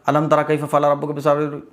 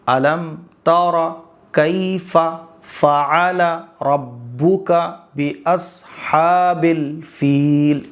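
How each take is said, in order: First: The words are rushed together quickly. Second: Each word is read slowly and separately. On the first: The speaker calls it wrong. "हम ऐसे पढ़ते चले जाते हैं, ये गलत है।" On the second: The speaker calls it right. "आपको आराम से पढ़ना है। एक एक लफ्ज़।"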